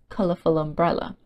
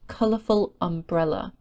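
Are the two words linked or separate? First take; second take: linked; separate. First: The two words are joined into one. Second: The two words are said separately.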